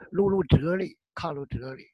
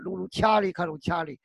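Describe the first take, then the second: First: The repeated syllable is pronounced zhe. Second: The repeated syllable is pronounced qia. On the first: This is the modern reading of the character. "你看看那佛心经里它是就是" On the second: This is the ancient pronunciation. "实际上那个就是折盖的折，在古代读掐"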